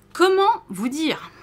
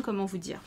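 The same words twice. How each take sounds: First: Louder, slower, higher comment vous dire; lost for words before a stunning pattern; emphatic and drawn out. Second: Said in the usual way. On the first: Real, not acted.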